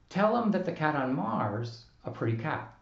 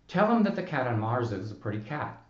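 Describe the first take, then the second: First: The vowel of 'is' is dropped entirely. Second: The vowel of 'is' is reduced and weak. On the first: "we can't say" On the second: "reduce the vowel of is"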